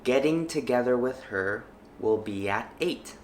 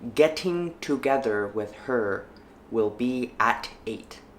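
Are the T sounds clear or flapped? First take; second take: flapped; clear. First: The T sounds are soft flaps. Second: The T sounds are clear, not flapped. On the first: "the second time, I will flap the sentence" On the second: "The first time I read each sentence, I will not flap them"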